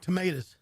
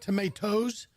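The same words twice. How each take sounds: First: The word ends with a sound unlike 'toes'. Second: The word ends with a sound like 'toes'. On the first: The speaker calls it right. "It's [name] and the Homegrown Tomatoes" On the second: The speaker calls it wrong. "like your toes on your feet"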